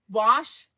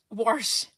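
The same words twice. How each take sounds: First: "wash" said clean, no r, wahsh; corrected "wash". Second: "wash" said with an r sound, warsh; odd "wash". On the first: Vlogger trying to fix her "wash". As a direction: try "wash" without the r. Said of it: "I can't say wash". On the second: Vlogger demoing her odd "wash". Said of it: "I do say wash weird". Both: Shown as a demonstration.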